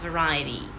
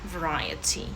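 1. Звук t звучить як швидке м'яке d. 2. Це чистий, чіткий звук t. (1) "Як майже в нас «д» там утвориться" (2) "Якщо ж у нас британська"

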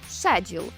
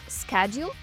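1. Слово вимовляють з британським акцентом. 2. Слово вимовляють з американським акцентом. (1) "більш притаманне британському акценту" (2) "американському"

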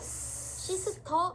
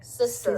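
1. 한국식 음절로 말해요. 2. 영어식 발음으로 말해요.

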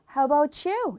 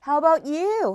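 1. "t"와 "y"는 하나의 소리로 합쳐져요. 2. "t"와 "y"는 따로 발음해요. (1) "요게 연음을 하셔서 T하고 Y가 같이 나란히 만나서 you가 돼요" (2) "How about you? 하셔도 되고요"

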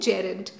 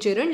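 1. शब्द का उच्चारण उसके मानक उच्चारण के अनुसार होता है। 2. शब्द को वैसे ही बोला जाता है जैसी उसकी वर्तनी है। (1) "करेक्ट प्रोनाउंसिएशन है जेरंड" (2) "स्पेलिंग याद करने के लिए जेरंड"

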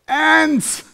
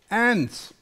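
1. Das Wort wird deutlich lauter gesagt. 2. Das Wort wird in normaler, leiser Lautstärke gesagt.

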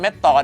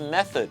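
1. คำนี้มีพยางค์ 'met-tot' แบบไทยที่ออกเสียงสั้นห้วน 2. คำนี้มีเสียง 'th' ที่เบาอยู่ตรงกลางคำ (1) "เขาไม่ได้ออกเสียงว่าเม็ดตอด" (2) "ก็ออกเสียงว่า, method"

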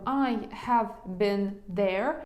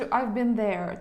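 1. Слово 'have' вимовляється повністю. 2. Слово 'have' редуковане й ненаголошене.

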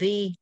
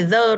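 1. Nguyên âm là âm 'ee' dài. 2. Nguyên âm là âm 'uh' ngắn, yếu. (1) "Trước the là nguyên âm thì em đọc là the" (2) "Không phải the đâu em ơi"

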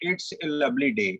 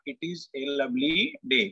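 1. "it is" एक छोटे से शब्दांश में संक्षिप्त हो जाता है। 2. "it is" धीरे-धीरे दो पूरे शब्दों की तरह बोला जाता है। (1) "जैसे लिखा गया है उस फॉर्म में पढ़ेंगे" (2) "इसको हम अगर थोड़ा सा आराम से पढ़ें, समझने के लिए पढ़ें"

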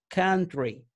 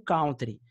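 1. A primeira sílaba soa parecida com 'can'. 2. É pronunciada como o nome de uma dança brasileira. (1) "A pronúncia correta é country" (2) "Muita gente pronuncia essa palavra aqui como country, que é uma dança lá"

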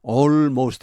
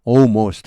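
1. L 소리는 분명하게 발음됩니다. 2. L 소리는 거의 들리지 않습니다. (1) "이렇게 하는 사람 잘 없고요" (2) "l이 거의 사라져버리죠"

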